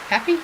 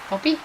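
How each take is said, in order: First: "pappy" with a short A as in cat. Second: "Poppy" with an O as in pop, higher. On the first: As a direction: try "pappy" with an A sound, questioning. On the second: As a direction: try "Poppy" with an O sound, questioning. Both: Shown as a demonstration. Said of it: "well, that's an A".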